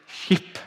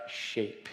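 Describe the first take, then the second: First: Sheep in a Welsh accent, breathy. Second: Said in the usual way. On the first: Shown as a demonstration. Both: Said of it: "I say it with a Welsh accent".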